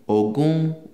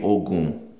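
First: The word is said on a mid pitch. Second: The word is said on a low pitch.

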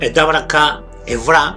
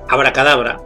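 First: The word is said as abraca evra. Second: The word is said as abracadabra. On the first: The speaker calls it right. "es decir, cuando decimos dabraca evra" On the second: The speaker calls it wrong. "mal dicho"

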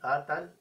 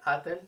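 First: An a vowel separates the t and l. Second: An e vowel separates the t and l. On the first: "ni atal" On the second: "no se escucha atel"

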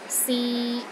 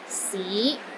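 First: The pitch is mid and level. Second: The pitch rises from low to mid. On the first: It means to try. "a mid-tone. It's pronounced in the middle of your range and it is steady" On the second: It means city. "It starts low then rises to the middle of your range"

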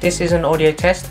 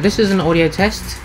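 First: Less background noise is heard behind the voice. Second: More background noise is heard behind the voice. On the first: The speaker calls it right. "it removes a lot of the background noise" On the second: The speaker calls it wrong. "using the internal microphone for my MacBook Pro"

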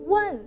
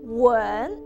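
First: The word is said with a sharper, more forceful tone. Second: The word is said with a softer, gentler tone. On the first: It means to ask a question. "significa te estoy haciendo una pregunta" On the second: It means to kiss. "en un tono más suave"

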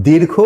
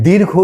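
No difference in how they are said.

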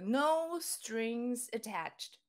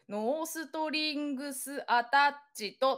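First: It flows like a melody with English sounds. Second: It is said as many even Japanese syllables. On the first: The speaker calls it right. "ちょっとメロディーみたいです。" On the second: The speaker calls it wrong. "日本語で"

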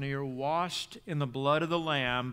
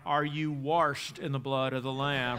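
First: It is said in a general, non-local accent. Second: It is said in a local Baldwin accent.

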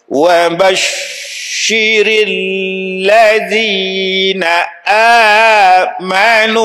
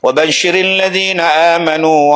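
First: It is recited at a very slow pace. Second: It is recited at a moderately quick pace. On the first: This is the pace for beginners learning to recite. "Bacaan paling slow untuk orang yang baru belajar" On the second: This is the pace used for congregational night prayers. "dia baca laju sikit"

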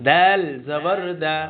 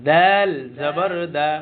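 Both takes have the same delivery.

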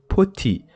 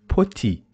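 The two takes are said the same way.

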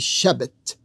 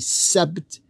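First: The word begins with an sh sound. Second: The word begins with a plain s sound. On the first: The speaker calls it right. "they say Shabbat" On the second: The speaker calls it wrong. "they don't say Sabbat"

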